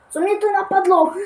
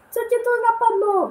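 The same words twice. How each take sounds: First: Said in the usual way. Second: Mock squeaky voice. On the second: Mocks himself in a squeaky voice.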